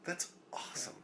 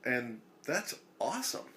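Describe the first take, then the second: First: Breathy whispered aside, higher. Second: Said in the usual way. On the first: Shown as a demonstration. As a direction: whisper it to yourself.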